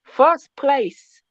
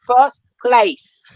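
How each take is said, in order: First: Put-on Jamaican accent, First pushed up higher; Jamaican accent, insisting. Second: Put-on Jamaican accent, first place a touch louder; light Jamaican lilt, proud boast. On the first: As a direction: repeat it in a Jamaican lilt, more insistent and higher. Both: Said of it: "You're getting that Jamaican accent out of me".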